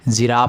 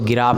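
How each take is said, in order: First: The word begins with a j sound. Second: The word begins with a hard g sound. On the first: "जिराफ बोल रहे हैं" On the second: "गिराफ बोलिएगा, गलत हो जाएगा"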